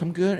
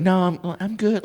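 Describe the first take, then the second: First: Put-on girl voice. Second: Put-on lightly higher girly voice; a hint of a polite girl brushing him off; man doing a woman's voice. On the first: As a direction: brush him off lightly, girlish. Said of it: "Like, in a girl voice". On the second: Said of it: "she's like".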